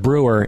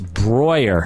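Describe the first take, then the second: First: The first vowel sounds like 'oo'. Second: The first vowel sounds like 'oy'. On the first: The speaker calls it wrong. "it's not Brewer" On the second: The speaker calls it right. "EU is pronounced Oi"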